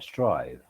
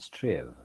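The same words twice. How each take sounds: First: The vowel sounds like the one in five. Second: The vowel sounds like the one in give.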